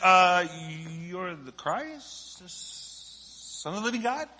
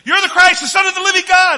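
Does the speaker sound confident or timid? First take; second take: timid; confident. First: It is said hesitantly and timidly. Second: It is said boldly and confidently.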